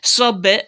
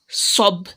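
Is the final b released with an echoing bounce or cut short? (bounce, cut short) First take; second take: bounce; cut short. First: The final b ends with a slight echoing bounce. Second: The final b is stopped flat without a bounce. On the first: The speaker calls it right. "we make the qalqala there" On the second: The speaker calls it wrong. "and not sob"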